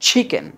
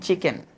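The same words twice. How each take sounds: First: The first sound has a strong puff of air. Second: The first sound has no puff of air. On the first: The speaker calls it right. "উচ্চারণটা হবে কি চিকেন" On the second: The speaker calls it wrong. "আমরা বলি চিকেন"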